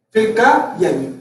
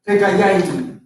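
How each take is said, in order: First: Recaiaimi drawn out syllable by syllable, slowly; slow teaching pronunciation of Recaiaimi; slow syllable demo. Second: Said in the usual way. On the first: Shown as a demonstration. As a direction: spell out Recaiaimi slowly, each syllable clear for the class.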